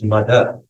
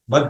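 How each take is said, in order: First: The syllable ends with a short final vowel. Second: The syllable ends on the final consonant. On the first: This is how it is said in Sanskrit. The speaker calls it right. "But in Sanskrit it is not mad, it is mother" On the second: This is how a Hindi reader says it. The speaker calls it wrong. "in Hindi when you read, you will read it as id, mad you will say"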